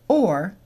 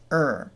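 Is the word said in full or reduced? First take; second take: full; reduced. First: The word is said in full form. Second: The word is reduced to a short er sound.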